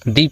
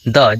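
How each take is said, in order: First: The word ends in a long 'ee' vowel. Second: The word ends in a short 'uh' vowel. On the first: The next word starts with a vowel. "दी पढ़ेंगे" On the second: The next word starts with a consonant. "द पढ़ेंगे"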